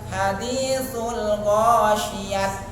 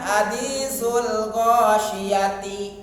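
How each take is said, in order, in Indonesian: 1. Kata terakhir berakhir dengan bunyi t. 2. Kata terakhir berakhir dengan bunyi ti. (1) "Jadi bukan hadisul ghasyiyat gitu ya" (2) "Lebih salah lagi"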